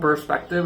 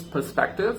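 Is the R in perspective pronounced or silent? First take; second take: pronounced; silent. First: The R sound is clearly pronounced. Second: The R sound is left silent. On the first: The speaker calls it wrong. "it's not" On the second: The speaker calls it right. "you don't have to pronounce all the R's in the British accent"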